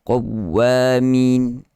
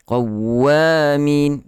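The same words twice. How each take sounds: First: Qawwamin with the w light and unpressed; without stress. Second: Qawwamin with the doubled w pressed and drawn out; stressed shadda. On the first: Teacher contrasting the weak reading, qawwamin unstressed. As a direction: read qawwamin with no weight on the w. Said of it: "Beza dengan qawwamin". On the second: Teacher demonstrating the right reading, Qawwamin stressed. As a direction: lean on the ww in Qawwamin. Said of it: "begitu seni An-Nabr". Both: Shown as a demonstration.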